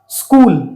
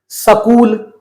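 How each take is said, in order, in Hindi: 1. s सीधे k में चला जाता है। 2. एक छोटा स्वर s और k को अलग करता है। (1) "सही उच्चारण क्या है?" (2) "अगर ये स पूरा होता तो हम क्या बोलते? ... जो कि गलत शब्द होता"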